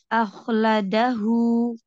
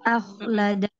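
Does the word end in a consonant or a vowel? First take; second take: vowel; consonant. First: The word ends with a final 'u' vowel sound. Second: The word ends on a consonant, without a final vowel. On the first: The reciter joins this word to the next. "Tapi ketika wasol" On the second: The reciter pauses on this word. "ketika waqaf seperti itu bunyinya"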